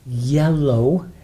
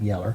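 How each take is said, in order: First: The word ends with a clear 'oh' sound. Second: The word ends with an 'er' sound. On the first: The speaker calls it right. "Yellow, not yeller" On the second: The speaker calls it wrong. "not yeller"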